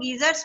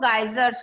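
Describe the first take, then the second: First: The first vowel sounds like 'ee'. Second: The first vowel sounds like 'eye'. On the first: "British English में इनको गीजर्स बोलते हैं" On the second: "American accent में इसको गाइजर्स बोलते हैं"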